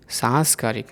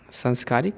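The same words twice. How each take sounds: First: सांस्कारिक with a long सां; the proper सांस्कारिक; correct form. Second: संस्कारिक with a short सं; the mistaken संस्कारिक; wrong form. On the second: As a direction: say संस्कारिक, first vowel short. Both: Shown as a demonstration. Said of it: "अशुद्ध और शुद्ध रूप".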